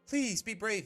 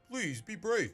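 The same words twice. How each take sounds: First: It is spoken in the reader's ordinary voice. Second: It is spoken in a lower, deeper voice. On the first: The speaker calls it wrong. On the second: The speaker calls it right.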